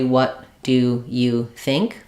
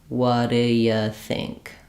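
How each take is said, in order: First: Every word is slow with even weight. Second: It is slow with the stress on think. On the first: The speaker calls it wrong. "rather than saying it slowly" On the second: The speaker calls it right. "Say it slowly with think"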